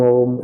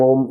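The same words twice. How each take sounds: First: The word is drawn out at moderate length. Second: The word is said short and quick. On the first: "ये दीर्घ उच्चारण है" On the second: "ये हर्ष उच्चारण है"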